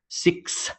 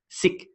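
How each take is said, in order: First: The word ends with a clear s sound. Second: The word ends without a final s sound. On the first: The speaker calls it right. "It's six" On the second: The speaker calls it wrong. "It's not sick"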